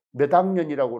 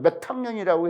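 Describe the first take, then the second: First: 몇 학년이라고 with a voiced d, med-angnyeon, Jeolla way; 몇 학년이라고 softened Jeolla style, a bit lower; 몇 학년이라고, Jeolla pronunciation. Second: 몇 학년이라고 with a crisp t before 학년, standard Seoul way; 몇 학년이라고 said met-hangnyeon, standard; 몇 학년이라고, standard pronunciation. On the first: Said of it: "이렇게 말하고". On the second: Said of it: "근데 표준어로 발음하자면". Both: Shown as a demonstration.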